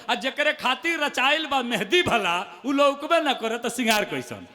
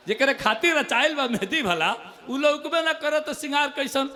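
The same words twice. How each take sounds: First: Poem line. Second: Repeated poem line. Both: Acted. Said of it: "सुनिएगा".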